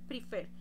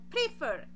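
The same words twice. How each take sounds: First: The stress is on the second syllable. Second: The stress is on the first syllable. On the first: The speaker calls it right. "si la hago en la segunda sílaba" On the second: The speaker calls it wrong. "yo no digo prefer"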